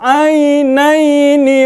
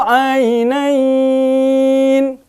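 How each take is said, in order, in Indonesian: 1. Vokal "ai" dibaca pendek. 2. Vokal "ai" dibaca panjang. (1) "mau wasol, itu tidak dibaca panjang" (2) "kalau di waqaf dia dibaca panjang dua sampai enam harokat"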